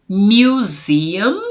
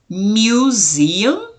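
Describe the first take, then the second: Both takes have the same delivery.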